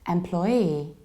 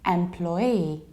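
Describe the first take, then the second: No difference in how they are said.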